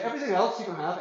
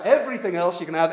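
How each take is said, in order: First: Said in the usual way. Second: Pressed louder with weight on everything; louder insistent repeat. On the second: Acted. Preacher to congregation, insisting louder on everything. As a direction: drive the point home, louder on everything.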